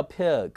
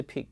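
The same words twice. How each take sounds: First: Pig as pi-uh-g; correct pronunciation. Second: Pig with a tight "ee", like peeg; wrong pronunciation. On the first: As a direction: say pig with a schwa glide. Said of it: "它叫pig". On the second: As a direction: say pig with no schwa. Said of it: "不是pig". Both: Shown as a demonstration.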